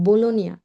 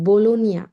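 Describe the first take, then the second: No difference in how they are said.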